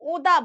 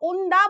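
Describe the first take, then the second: First: The n becomes only a nasalized vowel. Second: A full n sound comes before the d. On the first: This is how local people say it. "ওই এনটা চন্দ্রবিন্দুর আকারে চলে যায়" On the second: This is how outsiders to the area say it. "আমরা যারা বাইরের... ওন্দা বলে উচ্চারণ করি, কারণ ও এন ডি এ"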